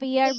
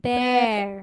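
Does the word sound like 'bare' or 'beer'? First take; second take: beer; bare. First: The vowel sounds like the one in 'beer'. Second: The vowel sounds like the one in 'bare'. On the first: The speaker calls it wrong. "বিয়ার আমরা এখন আর বিয়ার বলবো না" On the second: The speaker calls it right. "আমাদেরকে কি বলতে হবে? বের।"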